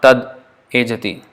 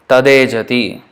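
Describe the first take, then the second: First: It is said with a break between parts. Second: It is said as one smooth word.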